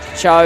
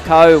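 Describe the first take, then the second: First: The name starts with a ch sound. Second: The name starts with a hard k sound. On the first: The speaker calls it right. "it's actually Cho" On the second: The speaker calls it wrong. "I've accidentally been calling her Ko"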